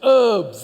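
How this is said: The word is said with a silent H.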